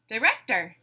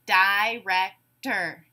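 First: Said in the usual way. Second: "director" split into separate syllables, di-rec-tor. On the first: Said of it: "you tell me the whole word". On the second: Shown as a demonstration. Teacher giving a word to blend, said syllable by syllable. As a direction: break "director" into slow, separate beats. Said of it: "say the syllables in a word".

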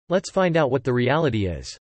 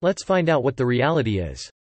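No difference in how they are said.

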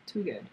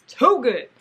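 First: Softer, lower too good; quiet. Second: Loud, high too good; excited. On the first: Vlogger repeating her praise, hushed and low. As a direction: murmur it to yourself. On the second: Vlogger gushing to viewers about the yarn, loud. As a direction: gush over it. Admiring yarn, repeated later. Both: Real, not acted.

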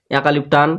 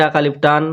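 The two takes are said the same way.

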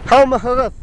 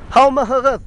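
Both takes have the same delivery.

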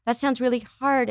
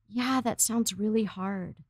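First: Said in the usual way. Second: Soft, slow, sympathetic acknowledgement; a parent calmly validating a sad child, softly; gentle empathy. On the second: Shown as a demonstration. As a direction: say it softly and slowly, like you truly hear them. Modelling an empathic parent reply.

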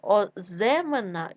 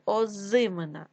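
First: Оземена with е instead of и; wrong variant Оземена, stem vowel е; е in second syllable. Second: Said in the usual way. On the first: Shown as a demonstration. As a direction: say Оземена with open e after З. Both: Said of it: "Зима".

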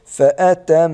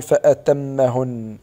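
First: فأتمهن with a held nasal ميم; فأتمهن with doubled humming m; correct pronunciation. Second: فأتمهن slow, meem not held; فأتمهن with a short meem; wrong pronunciation. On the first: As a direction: say فأتمهن with a two-beat nasal meem. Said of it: "أقول". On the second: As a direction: say فأتمهن slowly without the nasal hold. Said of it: "ولا نقول". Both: Shown as a demonstration.

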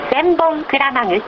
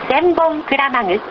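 The two takes are said the same way.

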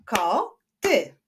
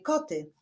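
First: "Koty" split as ko, ty with a gap; syllable by syllable. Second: Said in the usual way. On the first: Shown as a demonstration. Teacher clapping syllables for pupils, "Koty" split in two. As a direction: clap out "Koty" in two beats. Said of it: "wyklaszczmy sylaby w wyrazie koty". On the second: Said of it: "wyklaszczmy sylaby w wyrazie".

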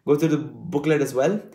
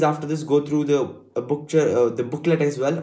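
First: Said in the usual way. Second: False starts and fillers; halting, self-correcting delivery; stumbling over words. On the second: Real, not acted. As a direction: trip on "booklet", then restart. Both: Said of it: "I'm stuttering so much today".

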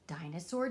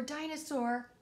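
First: Low call. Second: Second call pitched well up; higher sing-song call. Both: Acted. Calling for the hidden dinosaur.

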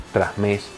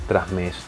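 No difference in how they are said.

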